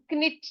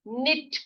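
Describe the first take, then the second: First: The K is sounded at the start. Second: The K is silent at the start. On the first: The speaker calls it wrong. "इसको हम क्निट नहीं पढ़कर" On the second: The speaker calls it right. "इसको हम निट पढ़ेंगे, के यहां पर साइलेंट है"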